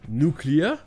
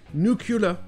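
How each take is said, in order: First: The word ends with a 'clear' sound. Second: The word ends with a 'cu-lar' sound. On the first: "le bizarre nuclear" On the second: "comme ces autres mots qu'ils connaissent bien"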